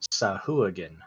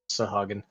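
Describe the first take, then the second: First: The middle has a 'wah' sound after the h. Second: The middle has a plain 'ha' sound, no 'w'. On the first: This is the official pronunciation. "According to D and D Beyond, it's pronounced Sahuagin" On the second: This is how the speaker had always said it. "I always said it like the A and the U were, were backwards"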